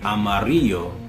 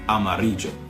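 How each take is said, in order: First: The double l sounds like an English y. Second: The double l sounds like an English j. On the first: "either the English Y" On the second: "or the English J"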